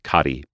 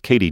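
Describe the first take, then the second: First: The first vowel sounds like 'ah'. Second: The first vowel sounds like 'ay'. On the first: The speaker calls it right. "it actually is pronounced Cotty" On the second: The speaker calls it wrong. "often pronounced Katie Jones"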